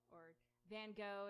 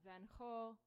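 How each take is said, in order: First: The name is pronounced in the American way. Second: The name is pronounced in a non-American way.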